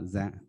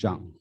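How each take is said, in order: First: The name begins with a 'z' sound. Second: The name begins with a 'j' sound. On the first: The speaker calls it wrong. "not Zhang" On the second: The speaker calls it right. "it's pronounced like John"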